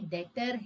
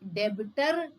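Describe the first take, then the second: First: The b sound is left out. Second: The b sound is clearly pronounced. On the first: The speaker calls it right. "डेटर ब silent होता है" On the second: The speaker calls it wrong. "ये डेबिटर नहीं है"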